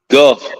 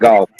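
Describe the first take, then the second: First: The vowel is a short 'uh' sound. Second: The vowel is an 'aw' sound, like golf. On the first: The speaker calls it right. "you got to re- repronounce that it's Gulf" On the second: The speaker calls it wrong. "not golf"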